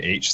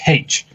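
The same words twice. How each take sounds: First: The letter name starts without an H sound. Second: The letter name starts with an H sound. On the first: "They don't say H" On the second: "like with the pronounced H at the start"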